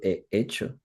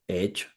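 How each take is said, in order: First: The two words are said separately, as written. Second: The two words run together like one word. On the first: The speaker calls it wrong. "pero yo no pronuncio he hecho" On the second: The speaker calls it right. "Yo digo he hecho"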